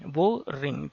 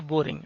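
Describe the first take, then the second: First: बोरिंग split into two parts, बो-रिंग; syllable by syllable. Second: Said in the usual way. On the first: Shown as a demonstration. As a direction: say बोरिंग as बो, then रिंग, with a small break. (बोरिंग को दो हिस्सों में तोड़कर: बो-रिंग) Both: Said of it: "दो syllable बन रहा है".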